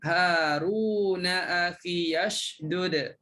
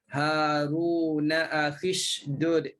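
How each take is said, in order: First: A voiced 'ya' sound follows 'akhi'. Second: No 'ya' sound follows 'akhi'. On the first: This follows one reading tradition. "Kalau sambung hidupkan ya baris atas" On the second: This follows another reading tradition. "tak hidupkan ya, buangkan ya"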